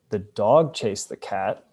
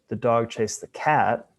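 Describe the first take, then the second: First: The word dog carries the main stress. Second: The word cat carries the main stress. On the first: It was this animal, not another, that chased. "as opposed to some other animal" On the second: This animal, not another, was chased. "which means the dog wasn't chasing some other animal"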